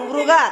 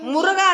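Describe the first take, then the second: First: The first syllable is a single cluster 'mri'. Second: The first syllable is split into 'mu-ru'. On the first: The speaker calls it right. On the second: The speaker calls it wrong. "ಮುರುಗ ಅಲ್ಲ"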